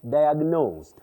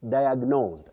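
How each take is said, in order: Both takes have the same delivery.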